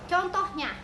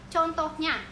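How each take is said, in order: No difference in how they are said.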